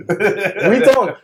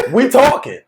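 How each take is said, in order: First: Drawn out, slow and laughing; slow mocking repeat; slow laughing taunt. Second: Laughing through it; mocking laugh; laughing taunt. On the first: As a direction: stretch it out, still chuckling. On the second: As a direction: chuckle the words out. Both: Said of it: "just going like".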